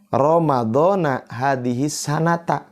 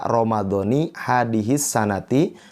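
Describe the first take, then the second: First: The words end with an 'a' vowel. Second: The words end with an 'i' vowel. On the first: "Kalaupun mau dibaca Ramadhana" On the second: "Jadi dibaca Ramadhani hadhihi sanati"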